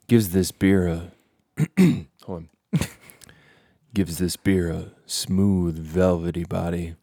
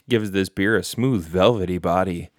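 First: The voice is put-on and sexy. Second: The voice is plain and ordinary.

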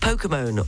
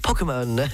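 First: The word is said with an English pronunciation. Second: The word is said with a French pronunciation.

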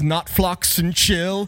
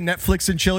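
First: The first word has a put-on British vowel. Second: The first word is said in a plain accent. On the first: "He says not flux and chill" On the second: "He tries to say Netflix and chill"

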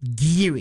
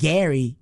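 First: The name is said as Geary. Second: The name is said as Gary. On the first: The speaker calls it right. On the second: The speaker calls it wrong. "Not even Gary"

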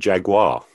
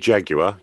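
First: It is said with an American pronunciation. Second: It is said with a British pronunciation. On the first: "You say jaguar" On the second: "We say jaguar"

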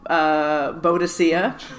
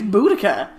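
First: The name ends with a 'see-uh' sound. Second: The name ends with a 'kuh' sound. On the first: The speaker calls it wrong. "I think you're saying that wrong" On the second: The speaker calls it right. "It's Boudica"

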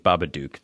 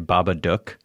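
First: The last syllable does not rhyme with 'book'. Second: The last syllable rhymes with 'book'. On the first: This is how the spelling reads to the speaker. "no, that says Babadook" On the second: This is how Australians say it. "They pronounce it rhymes with book"

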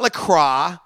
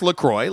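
First: The ending sounds French, like crwah. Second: The ending rhymes with enjoy, like croy. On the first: The speaker calls it wrong. "It's not LaCroix. Like the French may say it" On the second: The speaker calls it right. "Officially, it's pronounced LaCroix, like I said, so it rhymes with enjoy"

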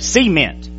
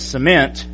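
First: It is said in a North Georgia accent. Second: It is said in a standard accent. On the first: "he'd say cement" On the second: "instead of saying cement"

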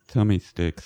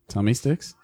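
First: It is said in a put-on character voice. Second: It is said in a normal speaking voice. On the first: The speaker calls it right. "In the voice" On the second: The speaker calls it wrong. "In the voice, ass hat"

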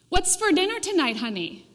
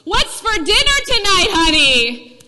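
First: It is said softly, from far away. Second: It is said loudly, in a strong voice.

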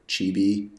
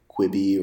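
First: The name has a Chinese-style pronunciation. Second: The name has an English-style pronunciation.

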